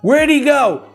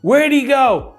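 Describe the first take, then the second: No difference in how they are said.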